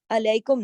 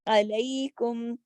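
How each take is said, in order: First: علیکم said the mistaken way, like the learners do; wrong reading. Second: علیکم drawn out slowly, yá like Urdu کئی; correct reading. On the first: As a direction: imitate the common error in علیکم. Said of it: "بعض لوگ غلط پڑھتے ہیں". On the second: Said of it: "کئی اور گئی کی طرح آواز نکالیں". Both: Shown as a demonstration.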